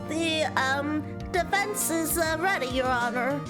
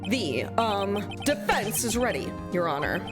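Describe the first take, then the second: First: It is said in a little kid voice. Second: It is said in his normal voice.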